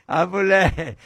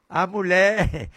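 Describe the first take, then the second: No difference in how they are said.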